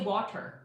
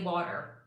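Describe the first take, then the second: First: The middle consonant is a crisp t sound. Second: The middle consonant is a soft d sound. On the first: "I don't say water" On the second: "Some T's turn into D's"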